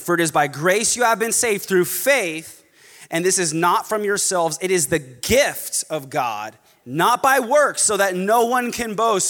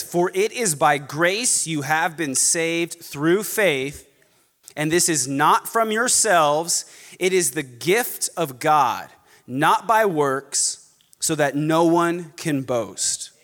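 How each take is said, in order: First: Quicker scripture reading, building in force; emphatic reading. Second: Slow, measured scripture reading with pauses; careful reading. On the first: Preacher rereading an important verse, emphatically. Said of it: "read it again because it's so important". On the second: Preacher reading Ephesians to congregation, very carefully. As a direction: give "grace", "gift" and "works" room, slowly. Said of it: "Read this very carefully". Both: Shown as a demonstration.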